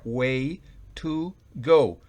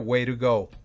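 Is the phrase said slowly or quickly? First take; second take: slowly; quickly. First: Each word is said slowly and separately. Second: The words run together quickly and naturally. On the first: "lentamente sería way to go" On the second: "pero se pronuncia way to go"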